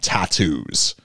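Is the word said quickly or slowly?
slowly. The word is said slowly. This is how North Americans say it. "whereas we slow it down"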